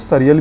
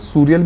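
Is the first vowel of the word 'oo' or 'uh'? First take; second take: uh; oo. First: The first vowel sounds like 'uh'. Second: The first vowel sounds like 'oo'. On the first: "I would request you to pronounce it सरियल" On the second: "इसके दो pronunciation होते हैं, सूरियल भी बोलते हैं"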